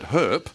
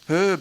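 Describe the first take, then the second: First: The name ends with a p sound. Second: The name ends with a b sound. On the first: The speaker calls it right. "as in herpes" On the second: The speaker calls it wrong. "his name wasn't Herb"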